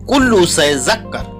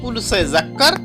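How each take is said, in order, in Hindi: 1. पहले शब्द के अंत में एक अतिरिक्त 'u' स्वर जुड़ा है। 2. पहले शब्द के अंत में कोई अतिरिक्त स्वर नहीं जुड़ा है। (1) "कुल्लू या कुल से जक्कर" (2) "या आप बोल सकते हैं कुल से जक्कर"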